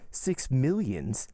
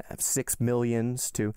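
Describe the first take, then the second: First: Slow, stunned "Six millions?"; stunned gasp. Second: Said in the usual way. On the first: A narrator's reading. Danglars shocked at the Count's demand, mild gasp. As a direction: let the figure drop out of him slowly in disbelief. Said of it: "gasped Danglars". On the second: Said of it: "continued Monte Cristo in a careless manner".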